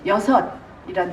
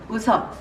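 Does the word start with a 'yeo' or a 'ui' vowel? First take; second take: yeo; ui. First: The first vowel sounds like 'yeo'. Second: The first vowel sounds like 'ui'. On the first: The speaker calls it right. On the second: The speaker calls it wrong.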